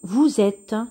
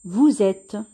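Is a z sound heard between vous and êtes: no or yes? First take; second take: yes; yes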